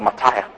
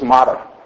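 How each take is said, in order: First: The word is said with a non-American pronunciation. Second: The word is said with an American pronunciation. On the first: "We call it martyr" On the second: "America says martyr"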